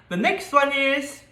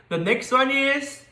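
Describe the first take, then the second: Both takes have the same delivery.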